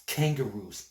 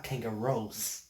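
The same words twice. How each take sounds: First: Said in the usual way. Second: Kangaroos ending in "rose" instead of "rooz"; mispronounced kangaroos. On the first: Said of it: "not kangaroos". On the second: Shown as a demonstration. Correcting her word, kangaroos mispronounced with an "oh" ending. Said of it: "That's kangaroos".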